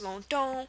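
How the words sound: The final vowel is nasal, French style.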